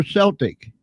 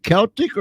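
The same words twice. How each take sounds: First: "Celtic" said with an S sound, SEL-tik; SEL-tik, soft C. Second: "Celtic" said with a hard K, KEL-tik; KEL-tik, K as in kick. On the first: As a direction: start "Celtic" like "sell". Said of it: "You can pronounce it both ways". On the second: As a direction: start "Celtic" with a K sound. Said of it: "is it Celtic or Celtic". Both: Shown as a demonstration.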